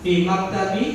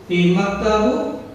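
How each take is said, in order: First: Maktabi with a final i vowel; corrected -bi ending. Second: Maktabu slow, rising on a final u; stretched maktabu with a questioning u ending; questioned -bu ending. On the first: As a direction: model maktabi, ending in "bee". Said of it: "Syaratnya harus kasroh". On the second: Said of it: "Ya, yang lain ini". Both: Shown as a demonstration.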